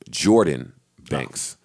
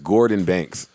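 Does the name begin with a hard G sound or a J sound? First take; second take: J; hard G. First: The name begins with a J sound. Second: The name begins with a hard G sound. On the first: The speaker calls it right. "He says it's pronounced Jordan Banks" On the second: The speaker calls it wrong. "I always pronounce this guy's name as Gordon Banks"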